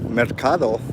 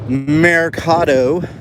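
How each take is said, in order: First: It is said with a careful Spanish pronunciation. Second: It is said with a casual English pronunciation. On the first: The speaker calls it right. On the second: The speaker calls it wrong.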